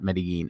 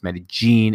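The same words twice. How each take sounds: First: The name is said the English way. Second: The name is said the local Spanish way. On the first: The speaker calls it wrong. "Medellin is not Medellin" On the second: The speaker calls it right. "It's Medellin is how they pronounce it over there"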